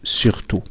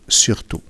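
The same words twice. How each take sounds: The two takes are said the same way.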